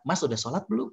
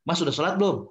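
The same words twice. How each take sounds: First: It sounds warm and gently friendly. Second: It sounds like a stern interrogation.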